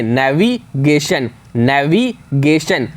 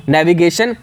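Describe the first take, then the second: First: navigation drawn out slowly, every letter sounded. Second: Said in the usual way. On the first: Shown as a demonstration. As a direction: spell it out with your voice, navigation. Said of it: "इस तरीके से बोलिए कि हर एक letter निकल करके आए". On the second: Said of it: "next है नेविगेशन".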